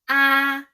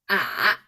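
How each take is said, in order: First: The pitch stays high and level. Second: The pitch dips low and turns back up.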